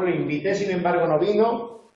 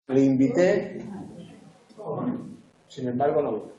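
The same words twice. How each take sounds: First: Said in the usual way. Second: Long pause after "invité", before "sin embargo, no vino"; pauses at commas. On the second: Shown as a demonstration. Teacher showing punctuation to students, pausing after "invité" and "embargo". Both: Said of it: "Qué enunciado está bien puntuado".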